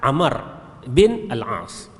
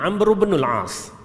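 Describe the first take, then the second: First: The name is said as two syllables, Amar. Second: The name is said as one syllable, linked on. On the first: It is read as a separate word. "kalau baca secara perkataan" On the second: It is read as connected speech. "dibaca secara sambung bunyinya"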